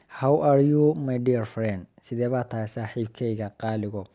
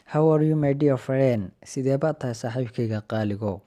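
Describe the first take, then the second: No difference in how they are said.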